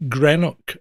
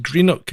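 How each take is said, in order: First: "Greenock" said as GREN-ock; short e in the first syllable of "Greenock"; English mispronunciation. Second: "Greenock" said as GREEN-ock; long ee as in green in "Greenock"; correct local pronunciation. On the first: Retold or imitated. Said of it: "all English people I've ever met have said". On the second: Shown as a demonstration. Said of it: "it's pronounced".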